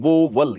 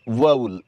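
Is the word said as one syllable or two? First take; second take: two; one. First: The word is split into two syllables. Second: The word is said as one syllable. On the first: The speaker calls it wrong. "इसमें आप दो syllable बना रहे हैं" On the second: The speaker calls it right. "इसमें तो एक ही syllable है"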